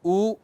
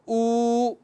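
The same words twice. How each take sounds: First: The vowel is held for a short time. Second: The vowel is held for a longer time. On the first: "एक बार ऐसे ऊ, फिर बोला एक मात्रा" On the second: "थोड़ा उसने लंबा बोला ऊ, तो ये दीर्घ हो गया और द्विमात्रा"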